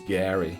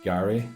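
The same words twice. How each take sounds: First: It is said with an American accent. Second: It is said with a British accent. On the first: This is how it is said across the ocean. "across the pond it's Gary" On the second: This is how it is said in the speaker's home country. "where I'm from. We call it Gary"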